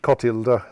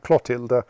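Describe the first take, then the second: First: The name begins with a plain 'c' sound. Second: The name begins with a 'cl' sound. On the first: The speaker calls it right. "but it's apparently Cotilda" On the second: The speaker calls it wrong. "believing that my si- little sister was called Clotilda"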